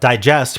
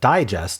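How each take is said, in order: First: The stress is on the second syllable. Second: The stress is on the first syllable. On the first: It means to break down food. "meaning like digest food, is the verb" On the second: It means a summary. "digest is the noun, and it's like the the summary"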